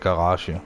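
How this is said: The word is said in a Danish way. "You say garage"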